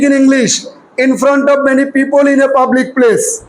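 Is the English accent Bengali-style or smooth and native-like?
Bengali-style. It has a flat, Bengali-style English accent. "আবার বাঙালিদের মতো পড়ি।"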